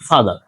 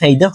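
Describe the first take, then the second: First: The first vowel sounds like 'ah'. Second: The first vowel sounds like 'eye'. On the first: The speaker calls it right. "ফাদার হবে ফাদার" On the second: The speaker calls it wrong. "এখানে ফাইদার হবে না"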